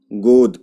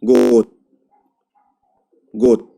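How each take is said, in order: First: गोद with a voiced final d; गोद read exactly as spelled; as written. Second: गोद said with a final t, like गोत; गोद, final d sounded as t; devoiced ending. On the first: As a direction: say गोद ending on a clear voiced d. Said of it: "जब हम pronounce करेंगे". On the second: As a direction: end गोद on an unvoiced t, gote. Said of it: "तो हम कैसे पढ़ेंगे?". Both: Shown as a demonstration.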